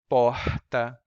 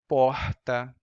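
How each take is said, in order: First: The r is a breathy puff of air. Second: The r is a breathy puff of air.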